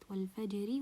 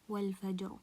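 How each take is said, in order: First: The r sound is light and thin. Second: The r sound is heavy and full. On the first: The word is joined to the next verse. "It will be light" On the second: The reciter stops on this word. "مفخمة"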